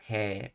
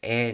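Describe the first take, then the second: First: It begins with an h sound before the vowel. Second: It is a bare vowel with no h sound. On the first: The speaker calls it wrong. "not he" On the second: The speaker calls it right. "Notice I'm pronouncing it as e"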